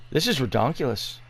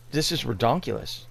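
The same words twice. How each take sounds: The two takes are said the same way.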